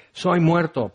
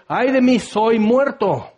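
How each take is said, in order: First: Said in the usual way. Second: Terrified cry. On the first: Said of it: "por fin entiendes que estás muerto". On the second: Acted. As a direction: cry out as if facing death. Isaías aterrado ante la gloria. (grito de espanto, agudo y lento)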